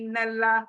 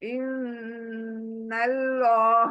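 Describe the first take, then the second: First: The 'l' in Allah is light and thin. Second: The 'l' in Allah is heavy and full. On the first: The speaker calls it wrong. "मतलब अल्लाह को बारीक रखते हैं।" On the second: The speaker calls it right. "अल्लाह को मोटा पढ़ो।"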